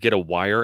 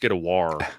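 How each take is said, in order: First: Wire is said with a standard two-syllable sound. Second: Wire is said like war, in a Baltimore accent. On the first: The speaker calls it wrong. "he pronounced it wrong" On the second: The speaker calls it right. "if you're from Baltimore"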